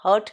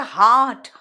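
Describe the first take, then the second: First: हर्ट with short "ur" for heart; unstressed short vowel in हर्ट; mispronunciation हर्ट. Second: हार्ट with a stressed long "aa"; correct long vowel. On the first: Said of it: "हर्ट नहीं". (हर्ट में छोटा "अ") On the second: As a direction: stretch the open vowel in हार्ट. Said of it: "दिल है हार्ट". (हार्ट में लंबे "आ" पर ज़ोर) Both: Shown as a demonstration.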